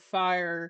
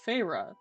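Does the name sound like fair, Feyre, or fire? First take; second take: fire; Feyre. First: The name is said like fire. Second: The name is said as Feyre. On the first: The speaker calls it wrong. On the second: The speaker calls it right. "I knew this name was pronounced Feyre"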